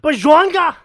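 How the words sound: It is said in a strong Swedish accent. "slipped into like full Swedish mode"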